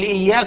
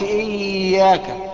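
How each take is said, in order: First: The y sound is said quickly, straight through. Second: The y sound is held and leaned on. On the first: The speaker calls it right. "قول إياك على طول" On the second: The speaker calls it wrong. "ما تقولش اياك، ما تقلش وتركن عليها"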